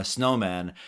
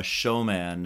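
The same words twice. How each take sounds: First: Snowman, with a clear sn at the start; snowman, said right after the apology; corrected name. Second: Showman, said with sh instead of sn; mispronounced name. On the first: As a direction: fixes the slip and says snowman properly. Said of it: "sorry, sorry". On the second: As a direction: says showman by mistake, a slip for snowman. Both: Shown as a demonstration.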